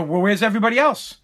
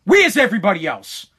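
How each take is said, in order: First: Said in the usual way. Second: Mild retold anger; imitating mad father. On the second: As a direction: demand it like a dad getting mad. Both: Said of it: "He got all mad".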